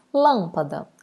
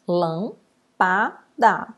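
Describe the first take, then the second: First: Said in the usual way. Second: "lampada" broken into lam, pa, da; split into syllables. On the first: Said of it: "Também não preciso chamar". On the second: Shown as a demonstration. Teacher separating the word for pupils, "lampada" syllable by syllable. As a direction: pause after each syllable of "lampada". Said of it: "eu separo".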